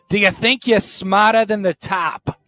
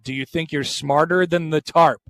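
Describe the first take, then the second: First: It is said in a Boston accent. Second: It is said in a plain accent.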